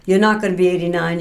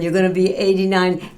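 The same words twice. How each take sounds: First: "not" leaned on in a quick, light mock quote of the son; stress on not. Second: "gonna" leaned on in a light mock quote of the son; stress on gonna. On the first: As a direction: punch "not" in "You're not gonna be eighty-nine". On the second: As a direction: punch "gonna" in "you're gonna be eighty-nine". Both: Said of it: "my son jokingly said".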